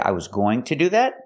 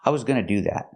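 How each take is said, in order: First: Going to is said in full with a t. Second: Going to is reduced to gonna. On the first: "making the to sound like t" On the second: "you can make the reduction and say"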